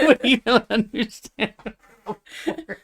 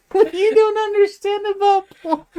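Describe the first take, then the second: First: Laughing imitation. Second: High, laughing mock lecture; mock condescending. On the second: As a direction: parrot her tone, cracking up. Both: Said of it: "the way you said it".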